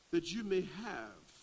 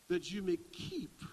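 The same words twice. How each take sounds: First: Said in the usual way. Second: "keep" jumps much higher and lands hard; preacher marking the key word of the verse, "keep" soaring; stress on keep. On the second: Shown as a demonstration. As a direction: lift "that you may keep" so "keep" rings out. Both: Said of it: "That's a key word".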